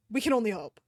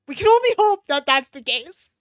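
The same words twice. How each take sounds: First: Said in the usual way. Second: Mock hope. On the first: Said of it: "plain take". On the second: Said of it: "dramatic hopeful".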